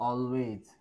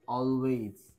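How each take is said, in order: Both takes have the same delivery.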